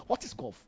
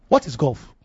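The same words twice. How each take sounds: First: Asks it softly, almost to himself; quiet musing. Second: "What is golf?" asked again at full voice, falling on "What"; pointed repeat. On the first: Preacher musing to his congregation, soft and low. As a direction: let the question drop low and quiet. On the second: Preacher challenging his congregation, firm and dismissive. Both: Real, not acted.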